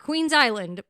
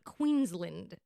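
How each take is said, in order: First: The ending sounds like the word island. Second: The ending is a short, reduced land. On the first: The speaker calls it wrong. "Not Queens Island" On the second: The speaker calls it right. "but Queensland"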